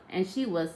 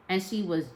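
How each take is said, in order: Both takes have the same delivery.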